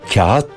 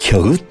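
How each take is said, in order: First: The first vowel is lengthened with no consonant. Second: A consonant sound is made between the vowels. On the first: The speaker calls it right. "yumuşak G'yi söylemeyip ondan önceki ünlüyü bir değer uzatıyoruz" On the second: The speaker calls it wrong. "kağıt demek çok zor"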